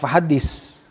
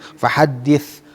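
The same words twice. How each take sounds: First: The consonant is a plain 's' sound. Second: The consonant is a soft 'th' sound. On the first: The speaker calls it wrong. "bukan fahadis" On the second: The speaker calls it right. "bukan sa tapi sa"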